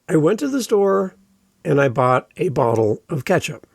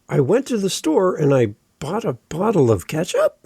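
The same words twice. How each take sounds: First: The pitch falls at the end of the sentence. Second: The pitch rises at the end of the sentence. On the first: The speaker sounds sure of what they say. The speaker calls it right. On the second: The speaker sounds uncertain of what they say. The speaker calls it wrong.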